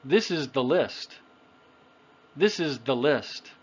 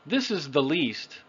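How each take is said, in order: First: "list" with a short i vowel; "This is the list", lax short i; short I sound. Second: "least" with a long ee vowel; "This is the least", ee as in "see"; long E sound. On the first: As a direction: keep the i in "list" short, as in "sit". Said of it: "If I had said the other one". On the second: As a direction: stretch "least" on ee, not short i. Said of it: "is what I said". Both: Shown as a demonstration.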